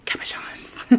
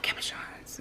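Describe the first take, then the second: First: Breathy hushed whisper of the word cabochons. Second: Cabochons said in a hushed breathy whisper. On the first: Whispering the craft word to her viewers. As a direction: breathe cabochons almost silently. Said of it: "you gotta say it like that". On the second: Reminding viewers how the word is said, whispered. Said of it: "Remember, you gotta say it like that". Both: Shown as a demonstration.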